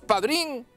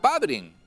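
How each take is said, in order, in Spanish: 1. El acento está en la última sílaba. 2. El acento está en la primera sílaba. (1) "si decimos padrín, nos estamos refiriendo a los pimientos of padrín" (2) "Muy importante la acentuación"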